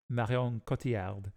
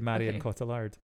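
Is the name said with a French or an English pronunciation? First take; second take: French; English. First: The name is said with a French pronunciation. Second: The name is said with an English pronunciation. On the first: "her name technically should be like Marion Cotillard" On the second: "but instead we say Marion Cotillard"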